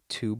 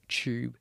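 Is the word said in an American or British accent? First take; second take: American; British. First: The word is said in an American accent. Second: The word is said in a British accent.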